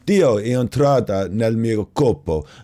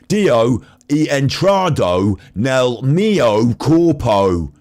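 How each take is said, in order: First: It is said with a natural Italian accent. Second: It is said with a heavy British accent.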